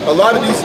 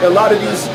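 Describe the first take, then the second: No difference in how they are said.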